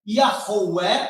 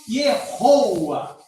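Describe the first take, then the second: First: The name is said as Yahweh. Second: The name is said as Yehoa. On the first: The speaker calls it right. "a pronúncia seria Yahweh" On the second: The speaker calls it wrong. "E não, de maneira nenhuma"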